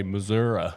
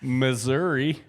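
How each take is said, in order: First: Missouri as muh-ZUR-uh; teasing muh-ZUR-uh for Missouri; Missouri ending in uh. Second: Slow, high, loud muh-ZUR-ee for Missouri; emphatic muh-ZUR-ee for Missouri; Missouri ending in ee. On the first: Retold or imitated. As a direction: swap the final ee of Missouri for uh. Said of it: "you probably say Missouri". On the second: Shown as a demonstration. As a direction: say Missouri deliberately, with a final ee. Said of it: "Say it again".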